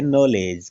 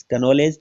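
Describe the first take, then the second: First: "नॉलेज" begun straight on the N, K left silent. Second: "का नॉलेज" with an extra "ka" before the N; K wrongly sounded. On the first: Teacher showing students the word, silent K in "नॉलेज". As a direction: say "नॉलेज" with no K sound at the start. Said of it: "का नॉलेज तो नहीं बोलते क्योंकि के का उच्चारण नहीं होता". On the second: Teacher showing what not to say, K sounded in "का नॉलेज". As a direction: voice the silent K as its own syllable in "का नॉलेज". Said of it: "तो नहीं बोलते". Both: Shown as a demonstration.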